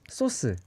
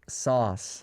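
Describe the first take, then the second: First: It is said with a Korean accent. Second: It is said with an English accent. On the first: "In Korea, we call this sauce" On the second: "in English, it's sauce. It has more confident"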